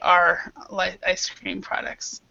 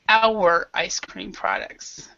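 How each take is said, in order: First: The word 'our' is said in reduced form. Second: The word 'our' is said in full form. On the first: "a lot of native speakers are are lazy" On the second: "there's also our"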